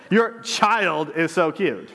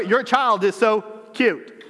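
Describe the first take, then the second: First: "Your" leaned on, slow and amused; stress on YOUR. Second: Put-on "child" leaned on, slow, laughing; stress on CHILD. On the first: Preacher showing how stress changes meaning, stress on "Your". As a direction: lean on "Your child is so cute" with a laugh. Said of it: "Or the other". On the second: Preacher showing the other reading, stress on "child". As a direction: hit "child" in "Your child is so cute". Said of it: "it changes the meaning all of a sudden". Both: Shown as a demonstration.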